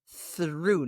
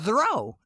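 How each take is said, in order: First: The vowel is a long OO sound. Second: The vowel is a long O sound. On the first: The speaker calls it right. "the O U G H makes a ooh" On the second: The speaker calls it wrong. "No, it is not throw"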